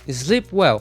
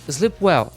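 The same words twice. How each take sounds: First: The final T of the first word is dropped. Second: The final T of the first word is dropped.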